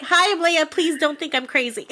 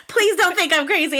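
First: Nervous fangirl. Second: Higher, laughing through "Please don't think I'm crazy". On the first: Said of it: "I'm like". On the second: Fan repeating her note to the cohost, laughing. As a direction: giggle through the plea. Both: Retold or imitated.

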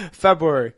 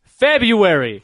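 First: February said feb-roo-ary, R sounded. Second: February slow with no first R, feb-yoo-ary; correct February. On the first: Real, not acted. Insisting February has the R. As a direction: keep the R in February. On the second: Shown as a demonstration. Correcting a friend, February slow without the R. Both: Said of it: "There's not an extra".

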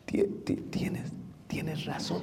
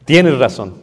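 First: Slow halting whisper, forcing out tienes razón; struggling whisper. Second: Tienes razón said louder and firmly, clearly spoken; firm admission. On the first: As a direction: whisper it as if the words hurt to say. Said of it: "Es difícil, hermano, decir". (susurro lento y trabado, como si costara decirlo) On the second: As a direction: say it plainly and firmly, mastering yourself. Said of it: "pero domínalo". (admitirlo con firmeza, en voz más alta) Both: Shown as a demonstration.

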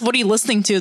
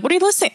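First: Said in the usual way. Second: "What are you listening?" asked high, dropping the to; mock the clipped "What are you listening?"; wrong phrasing. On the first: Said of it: "Nobody asks, "What are you listening to?". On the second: Shown as a demonstration. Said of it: "Nobody asks".

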